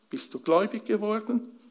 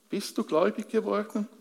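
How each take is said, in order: First: Geworden lifted and held at the end; asking if they truly became believers, weight on geworden; stress on geworden. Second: Du punched, the rest quicker; turning the question on each listener, weight on du; stress on du. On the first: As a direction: lean on "geworden", not on "du". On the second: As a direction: hit "du" hard and rush the rest. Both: Shown as a demonstration.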